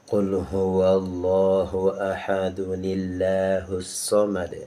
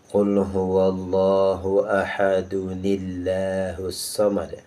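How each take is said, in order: The two takes are said the same way.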